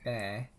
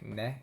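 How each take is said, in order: First: It is drawn out long. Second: It is said short.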